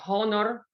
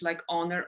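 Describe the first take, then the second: First: The word starts with an audible H sound. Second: The word starts with a vowel, no H sound. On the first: The speaker calls it wrong. "that would be kind of funny" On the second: The speaker calls it right. "lots of words with silent H"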